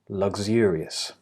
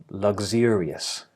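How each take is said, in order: First: The middle consonants are voiced, with vibration. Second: The middle consonants are voiced, with vibration.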